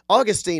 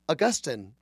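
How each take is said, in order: First: It is said like the Florida city name. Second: It is not said like the Florida city name. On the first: This is a folksy, everyday way to say it. "I like to say, because I'm a redneck, and it reminds me of St. Augustine in Florida" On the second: This is how educated people say it. "people call him. The smart people"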